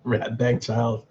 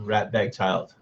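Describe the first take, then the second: First: Put-on "Rat bag child" said slowly, each word drawn out; savouring a phrase. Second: Said in the usual way. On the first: Shown as a demonstration. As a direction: roll "Rat bag child" out slowly like a new favourite insult. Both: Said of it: "I'm gonna use that".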